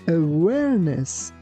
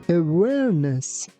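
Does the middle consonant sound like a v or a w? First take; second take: w; w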